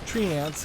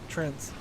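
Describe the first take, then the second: First: It is said as two syllables, tree-ants. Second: It is said as one syllable, trents. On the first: The speaker calls it wrong. "World of Warcraft's uh, way of pronouncing it" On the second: The speaker calls it right. "that's the r- real way to pronounce"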